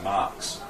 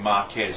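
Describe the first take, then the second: First: The name is said with one syllable. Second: The name is said with two syllables. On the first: The speaker calls it right. "I'm the only one that calls him Marks" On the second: The speaker calls it wrong. "everyone calls him Marquez"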